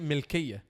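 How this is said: The first vowel sounds like 'i'. This is how it is said in Egypt. "in Egypt, you wouldn't say mulkiya. You would say milkiya"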